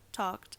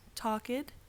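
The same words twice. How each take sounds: First: The ending adds no extra syllable. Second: The ending adds an extra syllable. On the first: The speaker calls it right. "Any verb that does not end in T or D is pronounced like Pat" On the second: The speaker calls it wrong. "That's wrong. That's how Ingrid pronounces her words"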